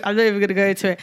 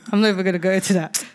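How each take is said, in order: First: Said in the usual way. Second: Quick, laughing brush-off; laughing, fast dodge of the topic. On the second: Real, not acted. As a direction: rattle it off through a laugh. Laughing off an embarrassing story.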